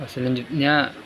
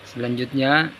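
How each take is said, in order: The two takes are said the same way.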